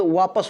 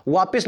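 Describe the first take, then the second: First: वापस with a short a in the second syllable; correct form. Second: वापस with an i in the second syllable; wrong form. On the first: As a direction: say वापस as "vaa-pas". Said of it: "होता है". (सही वापस, "प" में इ नहीं) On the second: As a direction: say वापस as "vaa-pis". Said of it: "नहीं होता कोई शब्द". (वापस को गलत "वापिस" बोलें) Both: Shown as a demonstration.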